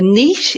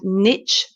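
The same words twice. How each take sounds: First: It is said the British way, rhyming with 'quiche'. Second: It is said the American way, like 'nitch'.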